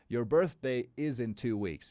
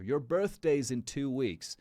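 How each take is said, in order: First: 'Birthday is' is said as two full words. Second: 'Birthday is' is contracted to 'birthday's'. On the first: "It's the same thing" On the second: "this is a contraction"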